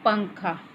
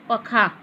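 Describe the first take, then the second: First: The first syllable is said through the nose. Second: The first syllable is said without nasal sound. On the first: The speaker calls it right. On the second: The speaker calls it wrong.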